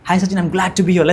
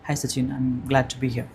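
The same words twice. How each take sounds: First: The voice sounds lively and excited. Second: The voice sounds flat and unexcited. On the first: The speaker calls it right. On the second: The speaker calls it wrong.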